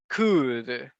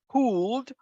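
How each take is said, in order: First: The L sound is silent in the word. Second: The L sound is pronounced in the word. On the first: The speaker calls it right. "the letter L is voiceless, so we do not pronounce it" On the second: The speaker calls it wrong. "we don't say could"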